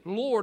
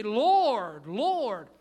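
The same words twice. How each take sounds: First: Said in the usual way. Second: LORD, LORD drawn out long and loud; emphatic confession. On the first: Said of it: "It wasn't just casual". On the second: Shown as a demonstration. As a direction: cry out each LORD slowly, with a falling swoop. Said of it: "they confessed Jesus".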